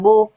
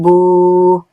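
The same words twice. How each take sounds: First: The vowel is held for one count. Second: The vowel is held for two counts. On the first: "it is one count" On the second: "two counts"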